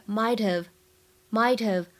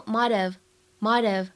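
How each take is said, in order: First: "might have" with a true t, not flapped; dictionary pronunciation. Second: "might have" with t softened to a quick d; American flapped t. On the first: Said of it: "它的音标发音写的是". (“might have”按音标读，t不浊化) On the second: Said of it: "会把这个t的发音呢做一个美音浊化". (“might have”美音浊化，t读成轻快的d) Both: Shown as a demonstration.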